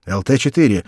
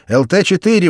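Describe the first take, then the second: First: Radio call, clipped and loud; calling over radio. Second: Loud, higher radio call; shouting over radio. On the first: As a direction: call the callsign into the mic. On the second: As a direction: shout the callsign urgently. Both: A narrator's reading. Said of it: "вызывал радист".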